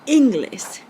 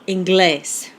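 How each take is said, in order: First: The stress is on the first syllable. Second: The stress is on the last syllable. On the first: The speaker calls it wrong. "with the accent on the second to last syllable" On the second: The speaker calls it right. "We say inglés"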